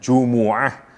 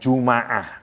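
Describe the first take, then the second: First: The m is followed by an u vowel. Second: The m is followed by an a vowel. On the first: "Satu bisa dibaca dengan Jumu'ah" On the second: "kalau dibaca fathah mimnya"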